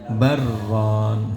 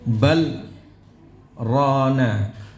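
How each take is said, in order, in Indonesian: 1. Kedua kata disambung tanpa jeda. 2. Ada jeda singkat di antara kedua kata. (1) "Kalau diidrajkan" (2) "itu saktah"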